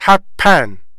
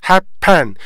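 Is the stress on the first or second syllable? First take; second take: second; second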